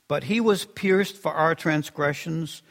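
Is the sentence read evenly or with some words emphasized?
evenly. It is read evenly without special word emphasis.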